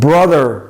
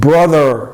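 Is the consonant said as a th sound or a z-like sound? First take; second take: th; th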